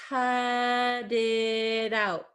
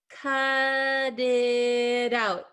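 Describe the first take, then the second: No difference in how they are said.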